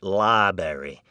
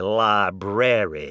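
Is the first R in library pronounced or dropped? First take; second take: dropped; pronounced. First: The first R is dropped, libary. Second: The first R is pronounced fully. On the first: The speaker calls it wrong. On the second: The speaker calls it right. "Here at Harvard we say"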